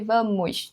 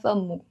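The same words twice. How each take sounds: First: The final s is pronounced. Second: The final s is dropped. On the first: This is the written, standard form. "a gente escreve vamos" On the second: This is the everyday spoken form. "na fala, na linguagem oral, é comum falar vamos"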